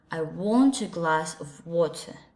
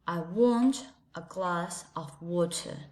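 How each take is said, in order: First: It is said in a British English accent. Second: It is said in a British English accent.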